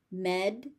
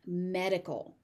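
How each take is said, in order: First: "Med-i-col" as med, ih, cull with gaps; three separate beats on "Med-i-col"; syllable by syllable. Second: Said in the usual way. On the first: Shown as a demonstration. Teacher sounding out "Med-i-col" for learners, syllable by syllable.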